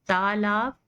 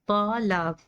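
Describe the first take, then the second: First: It begins with a plain, light t sound. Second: It begins with a heavy, emphatic t sound. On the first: The speaker calls it right. "ते और तोय का difference" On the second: The speaker calls it wrong. "जो गलत है, सुनने में ही गलत लग रहा है"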